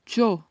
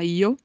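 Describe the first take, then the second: First: It starts with a soft sh-like sound. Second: It starts with a vowel-like ee sound. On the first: "um pouco mais parecido com um X, mas não é um X completamente marcado" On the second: "Pode ter som de I, por exemplo, na Espanha não se fala yo, se fala io"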